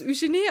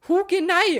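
First: The name starts without an h sound. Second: The name starts with an h and ü sound. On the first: It is the way the name is actually pronounced. "Und dann sprichst du es Eugenie aus" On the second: It is read the way it is spelled. "Hugenai wird da geschrieben"

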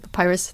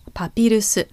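First: The name ends with a final s sound. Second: The name ends with an added vowel sound. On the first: The speaker calls it wrong. "Japanese people don't say papirus" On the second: The speaker calls it right. "They say papirusu"

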